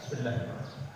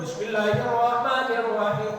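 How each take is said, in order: First: It is recited quietly, almost under the breath. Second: It is recited loudly and clearly.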